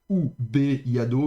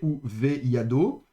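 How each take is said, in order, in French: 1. La consonne est une occlusive dure, un son b. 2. La consonne est une fricative douce, un son v. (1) "on ne dit pas donc" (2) "mais ... elle devient donc fricative"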